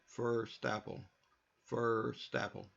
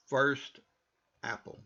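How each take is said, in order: First: First apple run together as firstapple; linked. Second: First stressed and cut off from apple; separated careful. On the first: Teacher demonstrating the linked native form. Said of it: "Hear that?". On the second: Teacher demonstrating the correct separated form. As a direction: say First loudly, pause, then apple. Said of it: "Everything about that is correct". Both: Shown as a demonstration.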